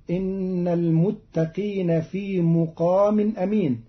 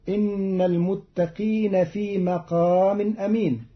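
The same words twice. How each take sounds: First: مقام opening with mu, "muqāmin"; Qalun reading. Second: Said in the usual way. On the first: Shown as a demonstration. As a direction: put a damma on the mim of مقام. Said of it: "بضم الميم". (مقام بضم الميم) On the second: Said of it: "قرأ قالون كلمة مقام بضم الميم".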